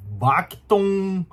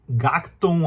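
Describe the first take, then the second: First: The name begins with a B sound. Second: The name begins with a G sound. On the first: "tem um som meio de B" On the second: "de G"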